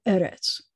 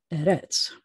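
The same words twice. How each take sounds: First: Eretz with the first syllable stressed. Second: Eretz with the final syllable stressed; wrongly stressed last syllable. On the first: Teacher showing students the right accent, first-syllable stress on eretz. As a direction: land on the opening "e" of eretz. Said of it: "accent's always gonna be on the first syllable". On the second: Teacher showing what not to say, last-syllable stress on eretz. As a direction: put the weight on "retz" in eretz. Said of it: "not eretz". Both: Shown as a demonstration.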